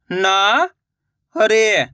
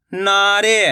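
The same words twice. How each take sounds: First: नारे drawn out slowly, syllable by syllable; slow syllable split. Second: Said in the usual way. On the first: Shown as a demonstration. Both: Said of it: "मैं किस तरीके से".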